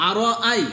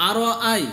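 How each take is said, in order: The two takes are said the same way.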